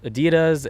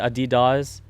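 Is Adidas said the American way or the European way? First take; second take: American; European. First: It is said with an American pronunciation. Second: It is said with a European pronunciation.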